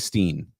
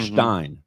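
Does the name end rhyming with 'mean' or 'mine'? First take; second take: mean; mine. First: The vowel sounds like 'ee' in 'seen'. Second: The vowel sounds like 'i' in 'line'. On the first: The speaker calls it wrong. "Nobody needs to say Steen" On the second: The speaker calls it right. "his name is Hartenstein"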